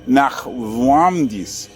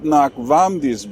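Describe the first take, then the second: First: The middle consonant sounds much like a W. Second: The middle consonant is a clear V sound. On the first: The speaker calls it right. "that weird V sound, which in the end sounds more like a W" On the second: The speaker calls it wrong. "it's not Nachvamdis"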